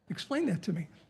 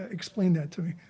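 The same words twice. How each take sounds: First: It sounds curious and engaged. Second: It sounds puzzled and flat. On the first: The listener is intrigued and wants more. "if their eyebrows go up, oh" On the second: The listener did not understand the idea. "you've lost them... they have no idea what you meant"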